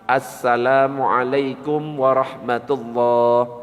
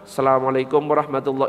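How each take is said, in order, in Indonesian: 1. Bunyi 'al' di awal diucapkan penuh. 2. Bunyi 'al' di awal dihilangkan. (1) "jangan sampai alif lamnya dihilangkan ... tetap lengkap" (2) "Jangan langsung ... itu tidak sah"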